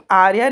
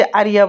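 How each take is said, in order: First: आर्या said short, as two syllables aar-ya; आर्या with no extra i sound; correct Arya. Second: आर्या stretched into three syllables, aa-ri-ya; आर्या with an added i sound; uncle's wrong Ariya. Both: Shown as a demonstration. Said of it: "uncle आर्या नहीं बोलते".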